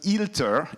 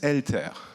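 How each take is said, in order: First: The name begins with an 'ee' vowel. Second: The name begins with an 'eh' vowel. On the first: The speaker calls it wrong. "It's not ILTER" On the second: The speaker calls it right. "it's ELTER"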